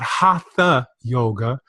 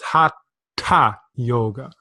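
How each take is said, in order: First: The th is said like English 'through'. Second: The th is a t with a puff of breath. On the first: The speaker calls it wrong. "This is not a th sound like we're used to in the West" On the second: The speaker calls it right. "it's hatha yoga"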